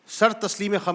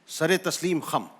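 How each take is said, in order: First: 'Sar' runs straight into the next word without a vowel. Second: 'Sar' is joined to the next word by an 'e'. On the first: The speaker calls it wrong. "सर तस्लीम खम नहीं है" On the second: The speaker calls it right. "यह है सरे तस्लीम खम"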